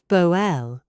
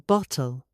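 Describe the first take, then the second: First: The middle T is a glottal stop. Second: The middle T is fully released. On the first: It sounds casual and street level. The speaker calls it wrong. "not boel" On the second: It sounds suitable for formal settings. The speaker calls it right. "Say bottle"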